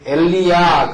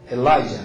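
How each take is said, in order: First: The second syllable sounds like 'lee', ending 'ya'. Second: The second syllable sounds like 'lie', ending 'ja'. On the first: This is how it is said in the Middle East region. "거긴 그렇게 얘기하고" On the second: This is the English way of saying it. "영어식 그러면 엘라이자"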